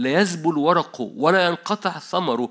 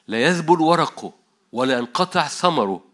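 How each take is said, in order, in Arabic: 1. تُقرأ الكلمات بسرعة. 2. تُقرأ الكلمات ببطء. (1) "أنا قريت بسرعة" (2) "هقراها ببطء عشان أنت تاخد بالك"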